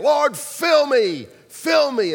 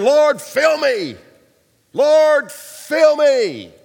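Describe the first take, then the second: First: Loud, slow shouted plea; loud drawn-out worship shout; fervent repeated cry. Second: Loud, slow pleading cry to God; loud drawn-out worship cry; fervent cry. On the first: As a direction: keep begging louder. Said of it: "He kept saying it". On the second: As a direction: call out to be filled, arms raised. Man crying out in church. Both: Retold or imitated.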